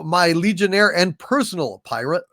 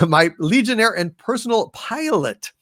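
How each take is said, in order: First: Says "pirate" for "pilot", slipping on the word; "pirate" said in place of "pilot"; misreading. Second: Said in the usual way. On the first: Real, not acted. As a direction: reads "pilot" as "pirate" by mistake.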